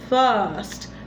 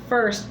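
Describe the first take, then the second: First: The vowel is an open 'fa' sound. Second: The vowel is a closed 'fur' sound. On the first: The speaker calls it right. "it's first. Fa" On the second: The speaker calls it wrong. "is not first"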